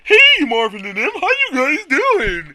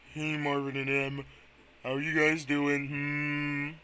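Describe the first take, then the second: First: It is said in a lively country-accented Bidoof voice. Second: It is said slowly in a tired, old Quagsire voice.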